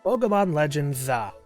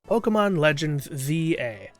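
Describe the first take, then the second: First: The ending is said as one syllable. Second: The ending is said as two letters.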